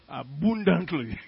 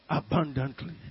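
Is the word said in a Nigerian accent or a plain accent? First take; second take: Nigerian; plain. First: The word is said heavily, in a Nigerian accent. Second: The word is said in a plain accent.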